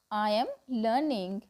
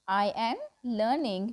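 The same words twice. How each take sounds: The two takes are said the same way.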